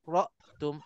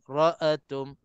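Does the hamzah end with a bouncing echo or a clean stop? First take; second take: clean stop; bouncing echo. First: The hamzah stops cleanly with no echo. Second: The hamzah bounces with a short echoing vowel. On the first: The speaker calls it right. "Taskinul hamzah kita kena matikan betul-betul hamzah itu" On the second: The speaker calls it wrong. "ada juga hamzah ini diqalqalahkan"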